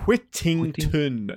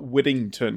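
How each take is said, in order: First: The middle t sounds are crisp, clear t sounds. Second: The middle t sounds are soft, like a d. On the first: The speaker calls it right. "Whittington, not" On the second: The speaker calls it wrong. "There's no D's in my name"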